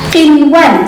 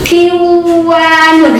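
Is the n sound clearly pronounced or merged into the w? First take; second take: clear n; merged. First: The n is pronounced clearly before the w. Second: The n merges into the following w sound. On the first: The speaker calls it right. "tidak boleh dibaca idgham ya, tetapi dibaca apa? Izhar" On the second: The speaker calls it wrong. "harusnya dibacanya begitu"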